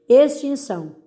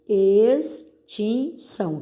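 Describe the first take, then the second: First: Said in the usual way. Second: "Extinção" slowly as ex, tin, ção; separando sílabas. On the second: Shown as a demonstration. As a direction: dictate "Extinção" with a pause after each syllable. ("Extinção" devagar, sílaba por sílaba) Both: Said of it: "separe as sílabas dessas palavras".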